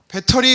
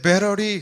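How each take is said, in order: First: The middle consonant is a clear t sound. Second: The middle consonant is a flapped r sound. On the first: It is the ordinary, unpretentious way to say it. The speaker calls it right. "배터리 이러면 되는데" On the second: The speaker is showing off having studied abroad. The speaker calls it wrong. "T 발음을 R 발음으로 하는 거예요"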